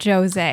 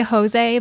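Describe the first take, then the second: First: The name is said with an English pronunciation. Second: The name is said with a Spanish pronunciation. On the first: This is how the characters say it. The speaker calls it wrong. "everybody pronounces it Jose" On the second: This is the name's real form. The speaker calls it right. "his name is clearly Jose"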